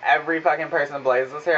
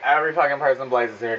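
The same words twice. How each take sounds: First: Incredulous echo. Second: Fast inner mockery. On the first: Retold or imitated. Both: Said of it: "I'm saying this in my fucking head".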